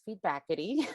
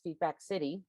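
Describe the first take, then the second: First: No 's' sound comes before the ending. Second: An 's' sound comes before the ending. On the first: The speaker calls it right. "but it is Feedbackity" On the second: The speaker calls it wrong. "I kept mispronouncing as Feedback City"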